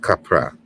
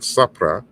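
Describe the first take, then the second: First: The word begins with a k sound. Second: The word begins with an s sound. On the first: The speaker calls it right. "it's capra" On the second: The speaker calls it wrong. "it's not sapra"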